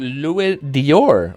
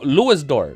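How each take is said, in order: First: The second word is said like 'dee-or'. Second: The second word is said like 'door'. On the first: The speaker calls it wrong. "I've been trying to go Louis Dior" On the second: The speaker calls it right. "Dior is pronounced like door"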